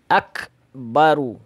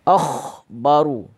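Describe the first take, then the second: First: The middle consonant is a hard k. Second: The middle consonant is a raspy kh. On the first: The speaker calls it right. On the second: The speaker calls it wrong. "Kemudian menggantinya dengan kha. ... contoh yang salah"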